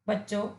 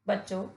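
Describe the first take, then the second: Both takes have the same delivery.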